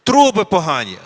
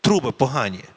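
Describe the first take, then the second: First: Louder, punch the word "Труби" hard and fall off; loud repeat of the audience's answer with "Труби" stressed; emphatic echo. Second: Lower, calm "Труби погані" with a firm fall on "Труби"; lower, matter-of-fact restatement, "Труби" lightly stressed; settled conclusion. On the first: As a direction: call back the answer heard from the room, leaning on "Труби". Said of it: "хтось я чув тут". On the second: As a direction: state it as the final verdict, pitched down. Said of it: "Це не має жодного значення". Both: Shown as a demonstration.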